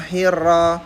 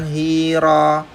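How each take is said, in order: First: The 'hi' is short and the r is doubled. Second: The 'hi' is drawn out long with single r. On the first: The speaker calls it right. "yang benar adalah hir pakai r double" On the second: The speaker calls it wrong. "dipanjangin hi-nya"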